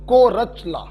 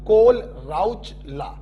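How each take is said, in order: First: The name is said without any L sound. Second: The name is said with a clear L sound. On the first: "अगर H और L silent कर दिया" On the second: "अगर सिर्फ H को silent किया"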